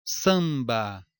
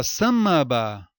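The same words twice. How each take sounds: First: "Samba" com ã no mesmo nível, sem ditongo; vogal nasal pura. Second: "samba" com M de consoante, sa-ma-ba; pronúncia errada. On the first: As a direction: diga "Samba" pausado, mais grave, com nasal parada. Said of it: "O som não decresce". ("Samba" sem soltar o M) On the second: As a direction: solte o M de "samba" como sílaba própria. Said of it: "ou fala samba?". ("samba" com "mâ" no meio) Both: Shown as a demonstration.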